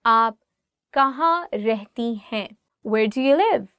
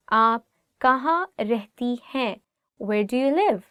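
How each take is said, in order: Both takes have the same delivery.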